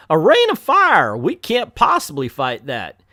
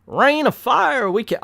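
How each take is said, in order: First: Hammed-up Southern mayor, loud start then dropping; Southern accent. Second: Hammed-up Southern cry of alarm; Southern accent. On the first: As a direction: restart the mayor's Southern alarm, bigger on the opening. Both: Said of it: "gave the mayor an a, a southern accent".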